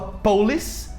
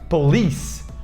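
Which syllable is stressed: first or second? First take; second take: first; second. First: The stress falls on the first syllable. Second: The stress falls on the second syllable. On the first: The speaker calls it wrong. "muita gente fala police" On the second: The speaker calls it right. "a sílaba forte é, é o li"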